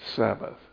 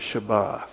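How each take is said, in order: First: It begins with s and ends in th. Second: It begins with sh and ends in t. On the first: "English, we say Sabbath" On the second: "In Hebrew, they pronounce it Shabbat"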